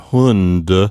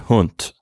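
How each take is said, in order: First: The final consonant is voiced, like English d. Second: The final consonant is voiceless, like a t. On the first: The speaker calls it wrong. "instead of Hund" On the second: The speaker calls it right. "often in an unvoiced or voiceless way"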